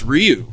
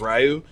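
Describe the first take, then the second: First: The name has a clear y glide after R. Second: The name has no clear y glide after R. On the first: The speaker calls it right. "you got the high yeah high Y sound" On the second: The speaker calls it wrong. "I even pronounced him incorrectly forever as Ryu"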